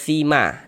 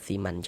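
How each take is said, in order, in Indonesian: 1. Kata ini berakhir dengan vokal a panjang. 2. Kata ini berakhir dengan bunyi n. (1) "dibaca sima dirubah jadi fathah" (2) "jangan dibaca siman"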